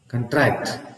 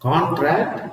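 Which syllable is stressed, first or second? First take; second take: second; first. First: The stress is on the second syllable. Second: The stress is on the first syllable. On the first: It is a verb meaning to reduce. "But when you say contract" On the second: It is a noun meaning an agreement. "the stress is in the first syllable"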